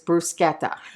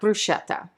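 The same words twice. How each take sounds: First: The word is said the Italian way. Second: The word is said an anglicized way. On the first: The speaker calls it right. "the correct pronunciation of bruschetta is" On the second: The speaker calls it wrong.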